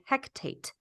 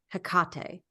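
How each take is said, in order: First: A t sound follows the first syllable. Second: No t sound follows the first syllable. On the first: The speaker calls it wrong. "They say Hectate" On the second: The speaker calls it right. "instead of Hecate"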